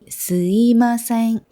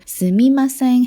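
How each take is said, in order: First: The second syllable is a plain 'i' sound. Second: The second syllable is a full 'mi' sound. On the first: "여기 이 미 부분이 거의 이처럼 스이마셍 이렇게 하는" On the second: "물론 스미마셍 해도 괜찮아요"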